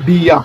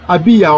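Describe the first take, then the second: First: The name begins directly with the B sound. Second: The name begins with an a vowel sound. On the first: The speaker calls it right. "ça ne se prononce pas, donc on dit Bia" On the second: The speaker calls it wrong. "on ne dit pas Abia"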